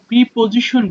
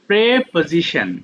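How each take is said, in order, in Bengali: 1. প্রথম সিলেবলে লম্বা "ee" স্বরধ্বনি আছে। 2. প্রথম সিলেবলে ছোট "eh" স্বরধ্বনি আছে। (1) "আমরা দেখি এটাকে আমরা প্রিপোজিশন বলি" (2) "বা শুদ্ধ হচ্ছে প্রে"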